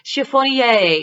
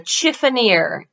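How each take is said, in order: First: The word is said the French way. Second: The word is said the American way. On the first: "if you're French" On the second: "the more American pronunciation"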